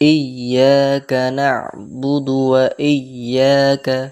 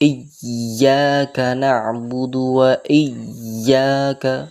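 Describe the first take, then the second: First: The doubled y is held for normal length. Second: The doubled y is held too long. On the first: The speaker calls it right. "Normal যুক্ত করতে হবে" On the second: The speaker calls it wrong. "ইয়াকে অতিরিক্ত ধরি"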